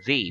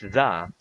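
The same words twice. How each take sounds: First: The vowel is long, like 'thee'. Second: The vowel is short and weak, like 'thuh'. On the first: "whereas we use the before a vowel sound" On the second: "We use the before a consonant sound"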